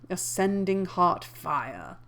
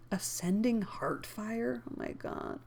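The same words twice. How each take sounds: First: Said in the usual way. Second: Muttered disbelief, trailing to a whisper; incredulous aside. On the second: Real, not acted. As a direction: drop out of narration, baffled. Reader's aside at the wording.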